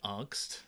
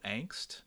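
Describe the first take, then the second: First: It is pronounced the way German speakers say it. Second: It is pronounced the way English speakers say it.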